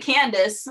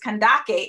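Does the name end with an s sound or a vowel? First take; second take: s sound; vowel. First: The name ends with an s sound. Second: The name ends with a vowel sound. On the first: The speaker calls it wrong. "we say Candace, which is incorrect" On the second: The speaker calls it right. "the actual pronunciation is Kandake"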